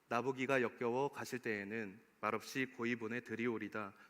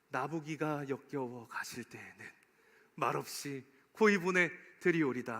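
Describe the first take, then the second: First: It is read without any sorrowful feeling. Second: It is read with the sorrow of parting.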